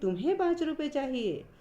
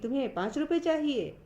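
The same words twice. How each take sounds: First: The stress falls on the word तुम्हें. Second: The stress falls on the words पाँच रुपए. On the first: "यहाँ तुम्हें पर बल दिया जा रहा है" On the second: "पाँच रुपए पर बल दिया जा रहा है"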